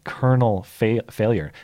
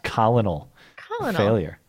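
First: Colonel is said like kernel, two syllables. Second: Colonel is sounded out following its spelling. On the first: The speaker calls it right. "this is a weird spelled word that I read correctly" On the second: The speaker calls it wrong. "not Colonel Failure"

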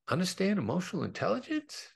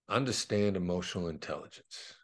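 First: The voice rises at the end. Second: The voice falls at the end.

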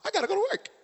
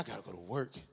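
First: It is said in a chipper, excited tone. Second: It is said in a tired, reluctant tone.

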